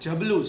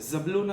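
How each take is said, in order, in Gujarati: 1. આ શબ્દ j અવાજથી શરૂ થાય છે. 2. આ શબ્દ z અવાજથી શરૂ થાય છે. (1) "જબલું છે" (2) "ઝબલું નથી"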